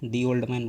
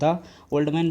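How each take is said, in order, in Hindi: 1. 'The' को लंबे 'thee' स्वर के साथ बोला जाता है। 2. 'The' को छोटे 'thuh' स्वर के साथ बोला जाता है। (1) "दी ओल्ड मैन बोला जाएगा" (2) "आप इसको द ओल्ड मैन बोलेंगे कि"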